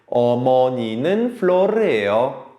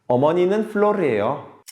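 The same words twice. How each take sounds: First: The sentence is said at a normal, slower pace. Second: The sentence is said at a quicker pace.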